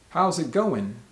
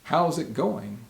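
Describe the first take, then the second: First: The final g of 'going' is dropped. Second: The final g of 'going' is pronounced.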